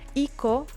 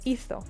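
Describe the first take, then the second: First: The middle consonant is a hard k sound. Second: The middle consonant is a soft th sound. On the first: The form would be spelled with a plain C. The speaker calls it wrong. "with a simple C, it would have it would not have made sense" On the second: The form is spelled with a Z. The speaker calls it right. "if you want to keep the sound th, we need to put the Z here"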